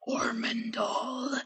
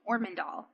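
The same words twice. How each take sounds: First: The name is rasped deep in the throat. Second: The name is said in a plain, normal voice. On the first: The speaker calls it right. "you almost have to like rasp it deep in your throat like a guttural voice" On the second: The speaker calls it wrong. "it doesn't saying Ormondahl. That just that doesn't"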